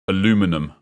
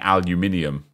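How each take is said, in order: First: It is said with four syllables, ending in -num. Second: It is said with five syllables, ending in -nium. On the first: The speaker calls it wrong. "if you're American, you say silly things like aluminum" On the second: The speaker calls it right. "Instead of saying aluminium"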